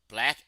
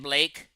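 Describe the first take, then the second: First: The vowel is short, rhyming with back. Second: The vowel is long, rhyming with bake. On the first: This is the modern way of saying the word. "not particularly B L A C K" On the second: This is how the word was said in an earlier period. "in Queen Elizabeth's time period, they were saying Blake"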